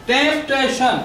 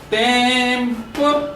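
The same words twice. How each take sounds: First: Said in the usual way. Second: ٽيمپٽيشن very slowly, broken into separate syllables with clear gaps. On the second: Shown as a demonstration. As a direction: stretch out each syllable of ٽيمپٽيشن and pause before the next. (ٽيمپٽيشن کي syllable syllable ڪري، آهستي چئو) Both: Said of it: "هڪڙي هڪڙي شيءِ کي syllable ٿا چون".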